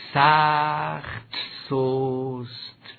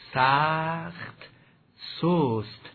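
No difference in how they are said.

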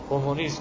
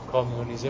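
First: It is said with a French-style 'ko-mu-nism'. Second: It is said with an English-style 'ka-myu-nizm'. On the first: This is how Persian speakers actually say it. "میگیم" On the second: This is how Persian speakers do not say it. "نمیگیم"

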